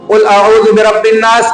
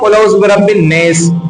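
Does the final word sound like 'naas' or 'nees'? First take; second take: naas; nees. First: The last word has an open 'aa' vowel. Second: The last word has a fronted 'ee' vowel. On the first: This is the common way it is recited today. "हम लोग पढ़ते हैं" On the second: Some people of a regional dialect recited it this way. "कुछ लोग ऐसे भी पढ़ने वाले थे"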